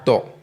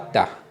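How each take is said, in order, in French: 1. La consonne est emphatique, avec une voyelle plus sombre. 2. La consonne est simple, avec une voyelle claire. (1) "c'est une lettre emphatique" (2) "c'est pas ta"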